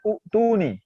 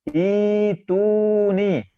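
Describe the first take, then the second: First: The word begins with an u vowel. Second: The word begins with a long i vowel. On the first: The speaker calls it wrong. "yang juara dua salahnya itu yang baca u tuh nih" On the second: The speaker calls it right. "Yang benar itu nih ... I dua harokat, i panjang"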